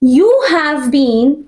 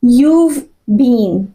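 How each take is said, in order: First: The word 'have' is said in full. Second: The word 'have' is shortened onto 'you'.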